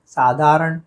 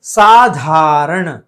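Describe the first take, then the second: First: साधारण said as "saadaaran"; no puff on धा in साधारण; wrong plain d. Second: साधारण slow and loud with puffed धा; aspirated dh. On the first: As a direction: flatten ध to द in साधारण. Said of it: "गलत है". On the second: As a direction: stretch "saa-DHAA-raṇ" in साधारण. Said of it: "सही है". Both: Shown as a demonstration.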